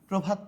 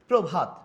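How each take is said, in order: First: The first vowel is a closed 'o' sound. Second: The first vowel is an open 'aw' sound. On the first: The speaker calls it right. "আমরা কি বলি প্রভাত" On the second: The speaker calls it wrong. "আমরা কি প্র বলি প্রভাত বলি কখনো না"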